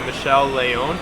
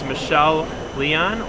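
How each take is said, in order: First: The surname is given its original, intended pronunciation. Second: The surname is given a casual, anglicized pronunciation. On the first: The speaker calls it right. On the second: The speaker calls it wrong.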